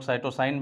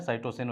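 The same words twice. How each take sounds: First: साइटोसाइन said with a long final "-saain", as some people say it; teacher says साइटोसाइन with the ending rhyming with "line"; alternative pronunciation. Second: साइटोसिन with a short "-sin" ending; teacher says साइटोसिन, ending clipped short like "sin"; usual pronunciation. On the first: Teacher showing students another way of saying it, साइटोसाइन with a long "-aain" ending. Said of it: "कुछ लोग साइटोसाइन भी कहते हैं". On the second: Teacher giving students the common pronunciation, साइटोसिन with a short "-sin" ending. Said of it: "साइटोसिन वैसे बोला जाता है generally".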